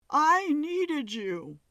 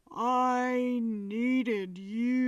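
First: High, slow falsetto plea. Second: Slow, drawn-out lower plea; deeper low tone. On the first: Medium voices the ghost in falsetto. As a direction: let it float up high and slow. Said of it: "His voice broke from a falsetto". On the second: Medium voices the ghost in a deeper tone. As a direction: drop to a deeper, heavier voice. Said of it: "to a deeper, low-pitched tone". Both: A narrator's reading.

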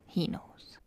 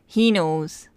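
First: Hushed, whispered aside; very soft, voiceless echo; knowing whisper. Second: Said in the usual way. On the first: Real, not acted. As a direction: whisper it as if in on the secret. Knowing repeat, dropped to whisper.

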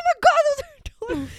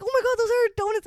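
First: High fast laughing squeal, imitating her friend; hammed-up excited shriek; mock frantic squeal. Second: Said in the usual way. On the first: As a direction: squeal it like someone who just spotted her lost donuts. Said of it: "She's like". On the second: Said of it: "And I'm like".

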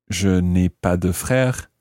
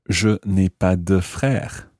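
The two takes are said the same way.

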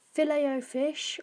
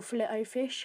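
First: "Filet" said "fi-LAY", silent T. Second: "Filet" said "FILL-it", T sounded; FILET as "fillet". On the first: Podcaster reading the menu, "Filet" said as "fi-lay". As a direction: say Filet-O-Fish with "Filet" ending in an "ay" sound. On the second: Podcaster offering another way, "Filet" said as "fill-it". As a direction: say Filet-O-Fish with "Filet" rhyming with "skillet". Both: Shown as a demonstration. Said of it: "however you wanna say it".

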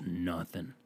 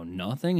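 First: NOTHING dropped very low and soft; very quiet, low NOTHING; low confirming reply. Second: NOTHING as a low, doubtful question; questioning echo. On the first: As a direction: answer NOTHING in a hushed, deep voice. Old man's confirming reply. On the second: Questions the old man's claim. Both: Retold or imitated.

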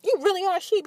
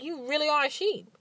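First: Higher and louder, punching "You" hard; exasperated retort. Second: A touch of scorn, a bit higher; scornful retort. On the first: Telling off her son's father, louder exasperated scorn. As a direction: blurt "You really are a sheep" in exasperation. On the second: Scolding her son's father in her head, mild scorn. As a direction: say "You really are a sheep" with mild contempt. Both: Retold or imitated. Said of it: "in my head, I'm like".

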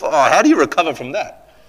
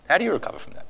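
First: High, aghast rhetorical question; voiced-out disbelief; pained exclamation. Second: High, soft, stunned question; quietly aghast; hushed repeat. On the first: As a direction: exclaim it in open dismay. Exclaims at Peter's failure, then repeats softly. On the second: Acted. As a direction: let it drop to near nothing. Same question repeated softly.

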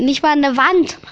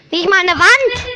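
First: Said in the usual way. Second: Higher and louder "Nicht mal eine Wand!"; emphatic repeat. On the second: Shown as a demonstration. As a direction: hammer the point home.

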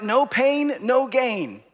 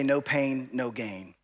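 First: Said in the usual way. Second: Low bodybuilder voice, dropping softer; joking, low-pitched lifter's motto; mock bodybuilder. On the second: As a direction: put on a deep gym-guy voice. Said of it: "When I was a bodybuilder, we would say".

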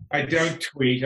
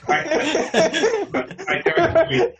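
First: Said in the usual way. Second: Laughing, much higher and louder "I don't tweet"; laughing real protest. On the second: Real, not acted. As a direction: blurt it out through laughter. Laughing denial, repeated.

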